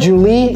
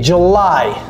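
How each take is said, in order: First: It is said with a French-sounding pronunciation. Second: It is said with an English-sounding pronunciation. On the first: The speaker calls it wrong. "c'est pas Julie" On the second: The speaker calls it right. "c'est July"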